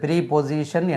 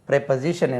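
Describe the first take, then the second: First: The first syllable has a long 'ee' vowel. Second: The first syllable has a short 'e' vowel. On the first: The speaker calls it wrong. "ப்ரீபொசிஷன் என்று உச்சரிக்கக்கூடாது" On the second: The speaker calls it right. "ப்ரெப்பசிஷன் என்று உச்சரிக்க வேண்டும்"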